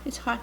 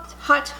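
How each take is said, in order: First: Said in the usual way. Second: Louder take. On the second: Real, not acted.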